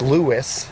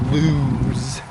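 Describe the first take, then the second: First: The name is said as two syllables. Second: The name is said as one syllable. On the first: This is how locals say it. The speaker calls it right. "Lewis, Delaware is the proper pronunciation" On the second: This is how visitors from elsewhere say it. The speaker calls it wrong. "it's not lose, as out of towners say"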